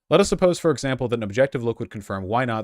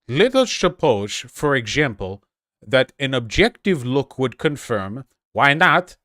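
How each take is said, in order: First: It is read in the speaker's own normal voice. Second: It is read in an exaggerated imitated foreign accent. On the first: "I can't do it" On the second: "I'm going to see if I can do it in the voice. ... That was Borat"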